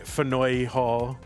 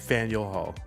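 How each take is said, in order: First: The name is given a French-style pronunciation. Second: The name is given the local pronunciation. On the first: The speaker calls it wrong. "We don't say Fanoy Hall" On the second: The speaker calls it right. "We say Faneuil Hall"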